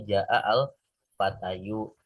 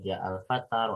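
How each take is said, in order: First: The last word ends with an added -yu sound. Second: The last word ends on a plain long a. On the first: This is the underlying full case ending. "dibacanya harusnya ja'a al fatayu" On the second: The case ending is only implied, not pronounced. "Akhirnya cukup dibaca al-fata semua aja"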